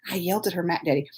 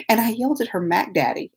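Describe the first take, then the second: First: Lower, softer, near-whispered repeat; whispery pretend shame; hushed mock confession. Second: Said in the usual way. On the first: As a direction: drop to a low mock-scandalized whisper.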